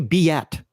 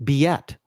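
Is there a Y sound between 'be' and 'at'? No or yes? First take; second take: yes; yes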